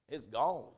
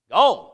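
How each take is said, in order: First: Said in the usual way. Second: "Gone" thrown out high and much louder; shouted gone. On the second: Real, not acted. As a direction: shout the single word "Gone" with a rising cry. Money lost, preaching emphasis.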